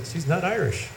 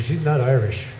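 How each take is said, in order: First: Higher, softer insistence, falling on Irish; retold gentle insistence, pitched up; insistent repeat. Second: Said in the usual way. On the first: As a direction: quietly stand your ground on a raised pitch. Repeats verdict to disbelieving friend.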